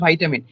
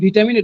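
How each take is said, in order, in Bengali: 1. প্রথম স্বরধ্বনিটি 'eye' এর মতো শোনায়। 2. প্রথম স্বরধ্বনিটি 'ee' এর মতো শোনায়। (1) "এটা হয়ে গেছে ভাইটামিন" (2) "আমরা বলে থাকি ভিটামিন"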